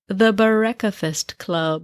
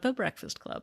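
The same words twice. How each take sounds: First: It is said in a fancy, put-on voice. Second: It is said in a plain, normal voice. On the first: "I just wanted to sound fancy" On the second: "There, I just said it"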